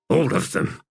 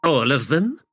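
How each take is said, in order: First: ALL higher, then falling; firm confirmation. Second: Higher, rising in surprise; startled question. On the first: Acted. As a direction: confirm it firmly, stressing All. Firm answer to startled question. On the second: A narrator's reading. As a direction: ask it taken aback. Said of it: "in a startled voice asked".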